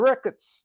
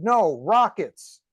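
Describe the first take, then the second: First: "rickets" with a short Israeli i vowel; Israeli accent. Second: "rockets" slow and louder, clearly separated; correcting emphasis. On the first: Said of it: "with the Israeli accent". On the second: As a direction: stress "rockets" firmly, correcting the mishearing. Friend correcting misheard word. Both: Retold or imitated.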